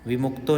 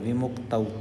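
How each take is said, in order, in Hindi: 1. शब्द का अंत सादा 'o' स्वर से होता है। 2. शब्द का अंत 'au' द्विस्वर से होता है। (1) "विमुक्तो नहीं है ये" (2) "ये तौ है"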